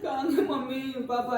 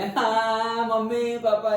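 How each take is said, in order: First: It is said in a soft, low voice. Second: It is cried out loudly.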